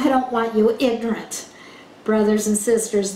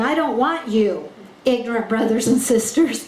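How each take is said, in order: First: The words stop briefly with a pause after 'ignorant'. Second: The words run on with no pause after 'ignorant'. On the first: The listeners are addressed as brothers and sisters and told not to be uninformed. The speaker calls it right. "you've got to pause in the right place ... He's saying" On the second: The listeners are being called ignorant brothers and sisters. The speaker calls it wrong. "he's not saying"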